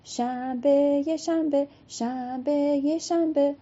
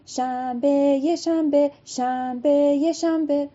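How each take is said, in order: First: Sung, slow first شنبه, then higher یه شنبه; sing-along chant. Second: Sing-song chant, higher, louder on یه شنبه; chanted, sing-song round of old women; old women's chant. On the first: Shown as a demonstration. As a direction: lead the children in the chant. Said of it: "بخونید شما با من". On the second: Acted. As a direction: chant شنبه یه شنبه like a circle game. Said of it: "چرخیدن و خوندن".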